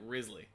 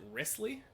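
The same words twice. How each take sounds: First: The middle consonant is a buzzing Z sound. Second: The middle consonant is a hissing S sound.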